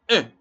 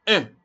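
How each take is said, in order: The two takes are said the same way.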